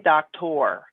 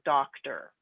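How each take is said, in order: First: The ending has a full 'or' vowel. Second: The ending has a reduced 'er' sound. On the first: The speaker calls it wrong. "we don't say doctor" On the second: The speaker calls it right. "O R makes the er sound"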